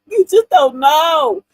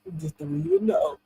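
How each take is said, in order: First: "You just don't KNOW", loud and drawn out; slow, loud punch on every word of "You just don't know"; emphatic repeat. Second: Said in the usual way. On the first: Real, not acted. Woman drives home her point to listeners, emphatic.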